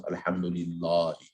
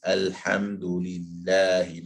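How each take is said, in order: First: Alhamdulillahi with a dark, thick 'lah'; heavy rounded 'lah' in Alhamdulillahi; wrong heavy vowel. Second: Alhamdulillahi drawn out with a thin, light 'lah'; slow Alhamdulillahi, empty mouth on 'lah'; correct light vowel. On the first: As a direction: say the long a in Alhamdulillahi full-mouthed and heavy. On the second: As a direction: say the long a in Alhamdulillahi as in 'at'. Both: Shown as a demonstration. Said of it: "Not Alhamdulillahi".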